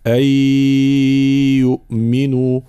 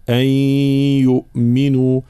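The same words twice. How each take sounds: First: "أن يؤمنوا" with the ghunna pushed through the mouth; wrong oral ghunna in "أن يؤمنوا"; nasal sound from mouth. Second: "أن يؤمنوا" with the merged nun hummed through the nose; ghunna from the nose. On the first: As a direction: merge the nun but voice it orally in "أن يؤمنوا". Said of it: "من يقرأ فيقول". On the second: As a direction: hold the nasal hum in "أن يؤمنوا". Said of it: "هكذا". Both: Shown as a demonstration.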